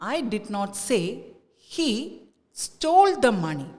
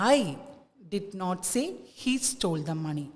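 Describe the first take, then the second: First: The stress falls on the word stole. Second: The stress falls on the word I. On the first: "let us give the stress to stole" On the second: "stress ഐക്ക് കൊടുക്കുമ്പോൾ"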